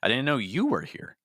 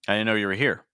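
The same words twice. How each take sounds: First: The stress is on the word you. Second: The stress is on the word here. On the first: "now I'm stressing you" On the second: "I'm stressing here"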